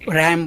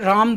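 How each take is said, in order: First: It is said with an English 'a' vowel. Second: It is said with a Hindi long 'aa' vowel.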